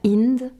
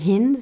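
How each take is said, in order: First: The name begins directly with the vowel sound. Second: The name begins with a breathy H sound. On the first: The speaker calls it wrong. "et pas Ind" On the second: The speaker calls it right. "qu'on disait Hind et pas Ind, et que c'était le H aspiré comme en anglais"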